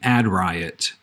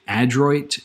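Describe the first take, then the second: First: It is split into 'ad' plus 'riot'. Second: It is said as one word, 'adroit'. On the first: The speaker calls it wrong. "I call them Ad Riot" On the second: The speaker calls it right. "I believe it's technically Adroit Theory"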